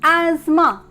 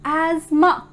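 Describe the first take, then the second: First: The middle 'th' sound is silent. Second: The middle 'th' sound is silent.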